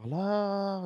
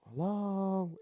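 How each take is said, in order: First: High, long-held calling hello; mock yell out into the storm; mild retold yell. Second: High, drawn-out questioning hello; calling out. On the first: Dreamer calling to whoever is crying, mild mock yell. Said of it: "I'm yelling". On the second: Retold or imitated. Dreamer calling from the door to whoever cries, calling out. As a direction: call out to someone unseen.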